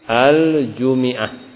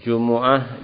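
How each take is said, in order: First: The m is followed by an i vowel. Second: The m is followed by a u vowel. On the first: This is a reading reported by az-Zajjaj. "dikasokan mimnya" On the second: This is the widely known reading. "dengan didhammahkan huruf mimnya"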